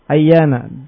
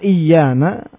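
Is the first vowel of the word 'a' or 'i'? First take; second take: a; i. First: The word begins with an 'a' vowel. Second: The word begins with an 'i' vowel. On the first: This is the common form of the word. "Dengan fathah pada hamzanya" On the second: "mengkasru hamzahnya iyana adalah bahasanya Bani Sulaim"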